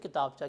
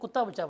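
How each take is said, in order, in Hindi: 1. यह 'ki' से शुरू होता है और एक ही शब्द है। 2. यह 'ku' से शुरू होता है और दो शब्दों में टूटता है। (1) "इससे किताबचा कहते हैं" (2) "मैंने कुत्ता बच्चा पढ़ लिया"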